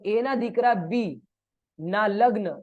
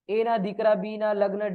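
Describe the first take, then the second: First: There is a pause right after बी. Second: There is a pause right after दीकरा.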